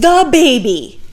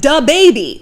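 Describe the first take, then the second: First: The first word starts with a soft th sound. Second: The first word starts with a hard d sound. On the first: The speaker calls it right. "Why not the?" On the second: The speaker calls it wrong. "Don't say duh"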